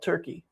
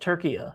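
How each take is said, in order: First: The name is said the usual English way. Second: The name is said the Turkish way. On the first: This is the name the country no longer wants. The speaker calls it wrong. "no longer wishes to be called Turkey" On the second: This is the name the country now requests. The speaker calls it right. "I believe it's uh, Turkey now"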